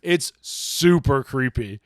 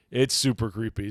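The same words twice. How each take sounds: First: Slow, relishing super creepy; drawn-out creepy. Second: Said in the usual way. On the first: Acted. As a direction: savor each word like a spooky tale. Savoring the story's creepiness.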